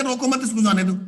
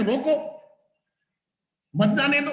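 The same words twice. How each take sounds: First: रोको मत run together as one order, then इसको जाने दो; रोको मत grouped together. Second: Higher रोको, long pause, then मत जाने दो; pause after रोको. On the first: Teacher reads it as the misunderstanding listener, मत joined to रोको. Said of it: "वो तो ये कहे". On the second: Teacher reads the intended comma for the police example, pause after रोको. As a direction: stop dead after रोको, keep मत with जाने दो. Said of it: "आपने कॉमा लगाया था". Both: Shown as a demonstration.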